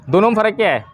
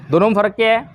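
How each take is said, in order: Both takes have the same delivery.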